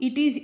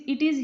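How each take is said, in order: No difference in how they are said.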